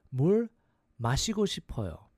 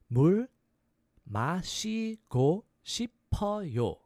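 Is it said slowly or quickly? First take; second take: quickly; slowly. First: It is said quickly. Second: It is said slowly.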